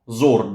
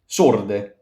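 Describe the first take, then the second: First: The word begins with a voiced z sound. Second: The word begins with a voiceless s sound. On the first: The speaker calls it wrong. "not zorde" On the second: The speaker calls it right. "S gives s"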